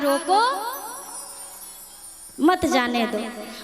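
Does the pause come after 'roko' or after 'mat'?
after roko. There is a pause right after 'roko'.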